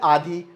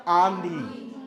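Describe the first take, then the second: First: Said in the usual way. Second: आंधी with a long nasalized first vowel; आंधी, nasal आ held. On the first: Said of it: "आधी का मतलब आधा". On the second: Shown as a demonstration. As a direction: push the start of आंधी into the nose. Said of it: "हमने अनुनासिक लगा दिया".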